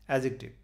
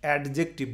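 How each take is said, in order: First: No d sound is heard before the j. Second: A clear d sound is heard before the j.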